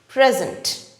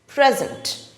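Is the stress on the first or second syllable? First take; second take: first; first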